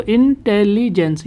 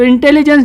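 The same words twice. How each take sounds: First: इंटेलिजेंस split as in-tel-li-jens; syllable by syllable. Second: Said in the usual way. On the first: Shown as a demonstration. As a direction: break इंटेलिजेंस into four separate, drawn-out beats. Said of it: "दो से तीन syllable में". (इंटेलिजेंस को टुकड़ों में तोड़कर) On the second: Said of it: "आप इसको प्रोनाउंस कीजिए".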